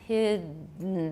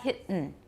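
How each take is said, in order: First: The voicing continues through the middle. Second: The voicing breaks off in the middle. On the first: The speaker calls it right. "The voicing doesn't stop" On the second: The speaker calls it wrong. "That's, that's voiceless"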